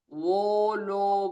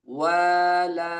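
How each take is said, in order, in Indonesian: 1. Vokalnya membulat dan berat, seperti o. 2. Vokalnya terbuka, renyah dan ringan, seperti a. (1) "bukan wolo wolo bukan" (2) "tapi wala renyah ringan"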